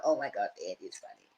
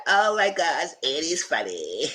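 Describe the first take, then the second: First: Softer, lower, said under the breath; quiet inner thought; soft aside. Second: High gushing voice, slowing on the name; high-pitched charmed squeal; delighted gush. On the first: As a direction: murmur it as a private thought. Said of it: "she thought". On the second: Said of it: "She said". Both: Retold or imitated.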